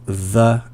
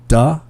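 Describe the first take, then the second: First: The word begins with a soft 'th' sound. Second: The word begins with a hard 'd' sound. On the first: The speaker calls it right. "instead of the and there" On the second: The speaker calls it wrong. "I was hearing a lot of duh and dare instead of the and there"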